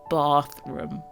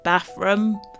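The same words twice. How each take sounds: First: It is said in a southern English accent. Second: It is said in a northern English accent. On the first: "I'm a Londoner, I say bath. ... There's that lovely R in there" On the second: "The northern way of saying bathroom"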